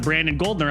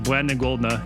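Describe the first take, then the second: First: The R sounds are pronounced clearly. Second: The R sounds are replaced or dropped. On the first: The speaker calls it right. "instead of" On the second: The speaker calls it wrong. "I couldn't pronounce R's or S's"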